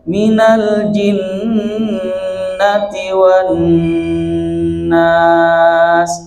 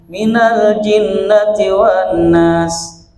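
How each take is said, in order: First: The nasal n sound is held long. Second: The nasal n sound is cut short. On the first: The speaker calls it right. "jangan tergesa-gesa" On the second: The speaker calls it wrong. "Jadi tidak ditahan itu"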